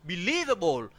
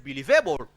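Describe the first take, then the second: First: Be-LIEV-able, second syllable stressed; correct stress placement. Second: "believable" as beli-VE-ble; wrong stress placement. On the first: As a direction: hit LIEV in "believable". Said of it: "We have believable". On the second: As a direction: shift the weight onto VA in "believable". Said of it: "We don't have believable". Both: Shown as a demonstration.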